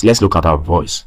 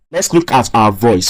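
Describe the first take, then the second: First: Low baritone demo voice; deep low voice. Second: Said in the usual way. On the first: Shown as a demonstration. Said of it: "this is a low pitch voice". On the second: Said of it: "you see that my voice is very thick".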